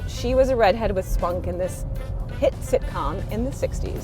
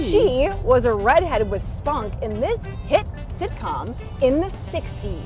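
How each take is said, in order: First: It is mumbled in a flat, low-energy voice. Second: It is read with lively, selling energy. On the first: The speaker calls it wrong. "You're just kind of mumbling the questions" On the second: The speaker calls it right. "Way better"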